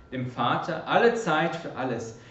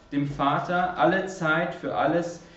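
The two takes are said the same way.

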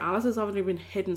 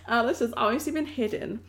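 First: The words are mumbled and run together. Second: The words are spoken clearly and distinctly. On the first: The speaker calls it wrong. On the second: The speaker calls it right.

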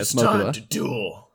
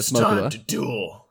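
First: A put-on voice imitating the character Kaiba. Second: The same.

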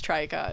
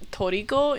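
First: It is said as two syllables, tree-co. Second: It is said with Japanese syllables, to-ri-ko. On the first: "everybody says tricot because that's how they read it" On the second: "Toriko in Japanese"

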